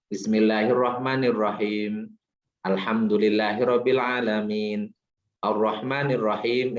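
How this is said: There is a pause after each verse.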